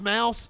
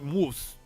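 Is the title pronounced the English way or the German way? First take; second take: English; German. First: The vowel sounds like the English word mouse. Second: The vowel sounds like the English word moose. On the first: "It's it's pronounced mouse?" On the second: "like a German like moose"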